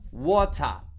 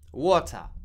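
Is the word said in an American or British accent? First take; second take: British; British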